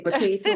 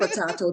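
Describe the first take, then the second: First: Potato with "ay" in the middle; American pronunciation. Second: Potato with "ah" in the middle; British-style pronunciation. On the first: Guest reassuring host about her accent, po-TAY-to. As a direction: say Potato as po-TAY-to, lifting at the end. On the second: Guest reassuring host about her accent, po-TAH-to. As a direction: say potato as po-TAH-to, falling at the end. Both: Shown as a demonstration. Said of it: "same thing".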